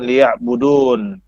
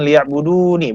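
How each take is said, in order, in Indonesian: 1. Kata itu berakhiran bunyi n polos. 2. Kata itu berakhiran suku kata -ni yang pendek. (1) "karena dia berhenti ... dibaca dengan liya'budun" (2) "matinya itu dengan liya'budu nih"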